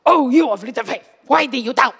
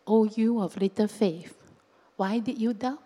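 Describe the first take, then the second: First: Loud, forceful scolding; angry rebuke. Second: Said in the usual way. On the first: Shown as a demonstration. Jesus angrily scolding Peter on the water, loud rebuke. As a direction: thunder it out as a rebuke. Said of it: "he get angry with you". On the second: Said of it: "Or do you think Jesus was saying".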